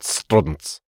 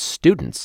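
First: The word is said in a strange, distorted voice. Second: The word is said in a normal voice. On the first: The speaker calls it wrong. "Fucking Smeagol, like, popped into the fucking thing" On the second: The speaker calls it right. "It's students"

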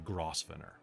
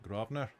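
First: Every letter is sounded as it is spelled. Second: It is said the British way, unlike its spelling. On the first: This is how an outsider reads the name. "But for you, it's the Grosvenor, because there's no way that you would get that word from that" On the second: This is how the locals say the name. "The buggers pronounce it Grosvenor"

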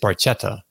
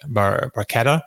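First: The 'ch' is said as in English 'church'. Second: The 'ch' is said as a hard k sound. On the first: The speaker calls it wrong. "you look at this word and you think it's Barchetta, but no" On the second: The speaker calls it right. "My Italian pronunciation"

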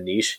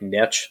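First: The word is said the Canadian way. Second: The word is said the American way. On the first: "as opposed to niche... a lot of Canadians, oh, we're so fancy saying niche" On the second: "I'm very Americanized... So I say things like niche"

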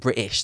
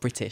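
First: The word is said in a British accent. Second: The word is said in an American accent. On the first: "Listen how British I am. I'm saying British" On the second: "not British"

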